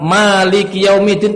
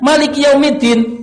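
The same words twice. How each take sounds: First: The vowel after the m is held long. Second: The vowel after the m is kept short.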